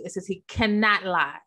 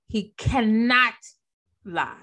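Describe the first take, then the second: First: Said in the usual way. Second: He cannot lie, dragged out slow with a pause before lie; slow emphatic. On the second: Shown as a demonstration. Preacher stressing to the congregation, slow and emphatic.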